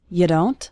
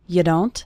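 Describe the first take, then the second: First: The words blur together in a reduced form. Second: The words blur together in a reduced form.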